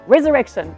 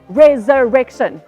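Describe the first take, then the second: First: The word is said very fast. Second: The word is said at a fast pace.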